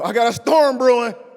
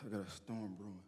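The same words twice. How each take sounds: First: The voice sounds confident and determined. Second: The voice sounds discouraged and defeated. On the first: The person is facing the trouble head-on. The speaker calls it right. "you're not backing off of this storm" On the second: The person is giving up in the face of trouble. The speaker calls it wrong. "oh man, I got"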